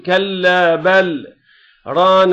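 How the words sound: There is a short stop after bal. The speaker calls it right. "نحن بنوقف ... بدها تقول كلا بل ران"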